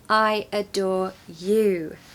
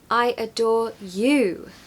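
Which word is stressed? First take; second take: you; you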